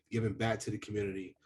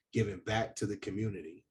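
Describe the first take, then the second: No difference in how they are said.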